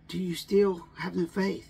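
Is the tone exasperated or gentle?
gentle. The question sounds gentle and reassuring. The listener is being invited to trust. The speaker calls it right. "It's, ... Trust me, is what Jesus is trying to tell us"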